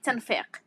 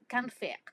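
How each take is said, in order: First: The word begins with a t sound. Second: The word begins with a k sound. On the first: "they don't say the ka in the beginning... it's become like t" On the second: "the ka in the beginning"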